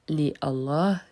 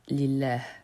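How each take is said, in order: First: The first a of Allah is pronounced separately. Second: The first a of Allah is dropped entirely. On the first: The speaker calls it wrong. "On ne dit pas" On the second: The speaker calls it right. "le premier a ne se prononce pas"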